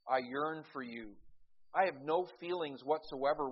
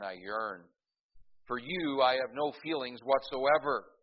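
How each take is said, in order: First: It runs on, with the break after 'you'. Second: There is a break right after 'yearn'. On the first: The writer longs for the addressee. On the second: The writer feels nothing for the addressee.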